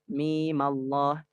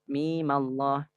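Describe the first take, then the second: First: The vowel in mim is short, two beats. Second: The vowel in mim is short, two beats.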